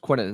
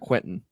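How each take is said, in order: First: The name is said without a T sound. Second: The name is said with a T sound. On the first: The speaker calls it right. "no T" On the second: The speaker calls it wrong. "not Quentin"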